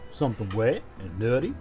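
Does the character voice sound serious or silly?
serious. A more serious version of the goofy voice is used. "serious Goofy"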